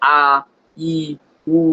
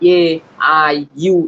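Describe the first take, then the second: First: The vowels are short, pure ah, ee, oo. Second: The vowels sound like English letter names. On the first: The speaker calls it right. "আমরা বলবো" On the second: The speaker calls it wrong. "এইভাবে বলবো না"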